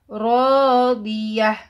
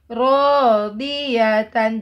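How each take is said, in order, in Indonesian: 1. Kata ini berakhir dengan bunyi h yang lembut. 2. Kata ini berakhir dengan suku kata tan yang penuh.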